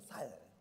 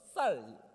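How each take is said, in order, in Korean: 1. 이 단어는 예사소리 ㅅ 소리로 시작합니다. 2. 이 단어는 된소리 ㅆ 소리로 시작합니다. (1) "살 막 이렇게 하는 것처럼" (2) "쌍시옷 발음이 안 돼서 쌀 발음이 안 돼서"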